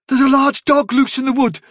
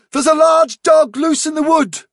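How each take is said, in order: First: High-pitched alarm, held slightly back; urgent warning. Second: Very high, ringing cry of alarm; insistent warning. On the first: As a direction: warn them firmly, pitched well up. Warning remembered, first take. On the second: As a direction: drive the warning home at full urgency. Warning repeated with more force. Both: A narrator's reading.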